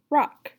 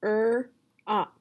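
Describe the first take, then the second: First: Said in the usual way. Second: ROCK split into "er" and "ok"; sounds separated. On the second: Shown as a demonstration. Teacher splitting rock for a student to blend, sounds separated. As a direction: say "er-ok" as two sounds with a gap. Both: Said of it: "What word is it?".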